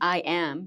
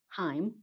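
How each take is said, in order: First: The phrase starts directly with the vowel. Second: The phrase starts with an added h sound. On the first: "if you're saying like I am" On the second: "you would say Heim"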